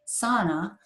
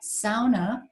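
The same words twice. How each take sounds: First: The word is said the common English way. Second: The word is said the Finnish way. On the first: The speaker calls it wrong. "not sauna" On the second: The speaker calls it right. "sauna is the correct pronunciation"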